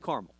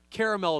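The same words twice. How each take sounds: First: The word is said with two syllables. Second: The word is said with three syllables. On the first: This is the easier everyday way to say it. The speaker calls it right. "I say caramel" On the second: The speaker is trying too hard to sound proper. The speaker calls it wrong. "is the try hard way to say it"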